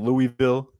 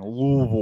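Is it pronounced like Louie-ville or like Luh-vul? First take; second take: Louie-ville; Luh-vul. First: It is said with full vowels, like Louie-ville. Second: It is said swallowed, like Luh-vul, the Kentucky way.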